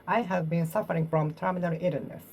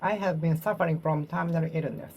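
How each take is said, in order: Both takes have the same delivery.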